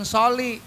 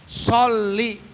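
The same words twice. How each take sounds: First: The L sound is short and single. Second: The L sound is doubled and held. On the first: The speaker calls it wrong. "jangan sholli. Kalau sholli itu adanya si Soleh" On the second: The speaker calls it right. "tasdidnya sholli ... di atas huruf lam"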